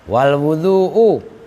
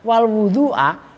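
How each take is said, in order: First: The last word ends with a u vowel. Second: The last word ends with an a vowel. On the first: The word starts a new independent sentence. "wawunya waw istiqnaf" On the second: The word is joined to the preceding clause. "Kalau kalian bikin wawunya waw atof"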